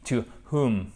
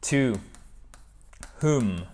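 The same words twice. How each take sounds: First: "To whom" with no W sound, breathed H before "oom"; teaching pronunciation. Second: "whom" said as "hoom", W silent, H breathed clearly; teaching pronunciation. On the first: Teacher repeats "To whom", silent W, clear H. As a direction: model "To whom" slowly with a clear H. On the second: Teacher to students, "To whom" with silent W and clear H. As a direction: sound the H, drop the W in "To whom". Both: Shown as a demonstration. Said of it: "on prononce pas le W et on fait bien notre H".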